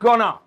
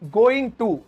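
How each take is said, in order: First: The words are squeezed into one short word. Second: Both words are said fully and separately.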